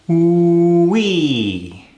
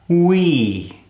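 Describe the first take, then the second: First: The W sound is held long. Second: The W sound is held half as long. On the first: "let's elongate that W" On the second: "Let's cut it in half"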